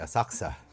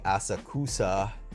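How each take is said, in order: First: The u vowel after the k is dropped. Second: The u vowel after the k is pronounced. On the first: The speaker calls it right. "they say asakusa" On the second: The speaker calls it wrong. "They don't say asakusa"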